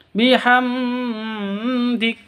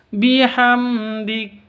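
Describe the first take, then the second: First: The m is held with a nasal hum. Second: The m is short and clear, without hum. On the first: The speaker calls it wrong. "tidak boleh didengungkan. Bihamdik tidak boleh" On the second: The speaker calls it right. "Yang betul itu bihamdik"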